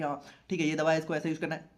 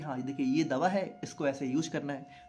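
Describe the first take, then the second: First: It is said fast and rushed. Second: It is said slowly and calmly.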